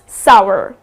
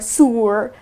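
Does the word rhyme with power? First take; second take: yes; no. First: The vowel rhymes with power. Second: The vowel does not rhyme with power. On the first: The speaker calls it right. "you can rhyme it with power or shower" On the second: The speaker calls it wrong. "many people pronounce it as sour or sour"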